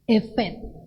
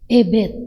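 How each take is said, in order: First: The middle consonant is a v sound. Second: The middle consonant is a b sound. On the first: The speaker calls it right. "ketika tidak ada titik di tengah" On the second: The speaker calls it wrong. "maka itu dibaca Bet"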